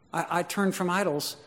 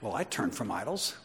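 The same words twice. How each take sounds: First: Higher pitch, falling gently at the end; mildly wondering convert, no boast; humble, surprised testimony. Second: Quiet, low boast with a rising end; understated self-righteous believer, voice dropped. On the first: Preacher voices a believer grabbed by the message, humbly wondering. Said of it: "I don't know what happened in my life". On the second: Preacher mimics a believer who takes credit for works, mildly self-righteous. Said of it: "it would be like this then". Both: Acted.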